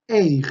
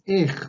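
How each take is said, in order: First: The vowel glides from e into i. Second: The vowel is a plain e without glide. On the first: This is the full written form of the word. "ese es el sonido real de esta palabra" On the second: This is how it is normally said in everyday speech. "se come la i del medio"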